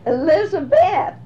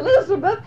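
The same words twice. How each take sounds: First: The last syllable has a long vowel. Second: The last syllable has a short vowel. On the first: The speaker calls it right. "he had a long mark across the B-E-T-H. That made it Elizabeth" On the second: The speaker calls it wrong. "Not Elizabeth"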